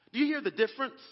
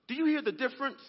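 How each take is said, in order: Both takes have the same delivery.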